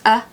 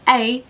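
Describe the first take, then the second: First: The word has a weak schwa vowel. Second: The word has a full, strong vowel.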